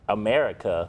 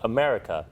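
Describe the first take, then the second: First: It is said with an American accent. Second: It is said with an Australian accent.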